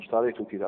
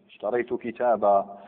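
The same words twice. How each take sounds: First: The last word ends on a bare consonant. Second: The last word ends in a long 'a' vowel. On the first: "احنا في الدرجة انا ماشيين على السكون مطلقا" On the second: "لكن المنصوب لازم نأتي بمد البدل، مد التنوين"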